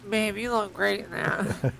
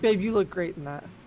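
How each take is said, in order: First: It is said in a nasal voice. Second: It is said in a normal voice.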